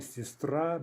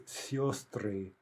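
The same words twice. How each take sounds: First: Сестра with stress on the final а; stress on last syllable. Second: Сестры with stressed first е said as ё, "yo"; stress on first syllable. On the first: Teacher showing the singular, сестра stressed on the ending. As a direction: slowly land on the end of сестра. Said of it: "Stress jumps back". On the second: Teacher showing latent ё, сестры stressed up front. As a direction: slowly open сестры on a stressed "syo". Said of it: "has become stressed". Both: Shown as a demonstration.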